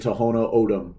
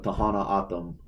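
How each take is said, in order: First: The vowels follow the written spelling. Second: The vowels are changed away from the spelling. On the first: This is how outsiders to the community say it. The speaker calls it wrong. "because that's closer to how it's spelled" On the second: This is how the name is actually pronounced. The speaker calls it right. "but the pronunciation of"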